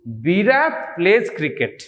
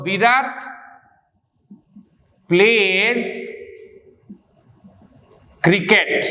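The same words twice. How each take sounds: First: Said in the usual way. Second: Slow, with long pauses between words; word-by-word dictation. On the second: Real, not acted. Teacher writing out an example for students, word-by-word dictation. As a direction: dictate it one word at a time.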